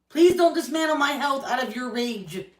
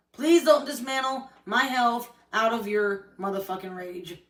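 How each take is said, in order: First: Higher, louder plea hammering please; angry plea. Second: Angry repeat. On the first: To Corey, begging him to stop his rage, loud plea. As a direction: beg loudly, every word pressed. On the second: To Corey, repeating her plea with a curse, bitter and spent. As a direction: spit out motherfucking, let rage fall away. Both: Real, not acted.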